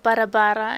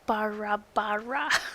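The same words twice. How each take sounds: First: It is said with a Polish pronunciation. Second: It is said with a fake English accent. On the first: "It's in Polish. It's called barabara" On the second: "with this like fake English accent"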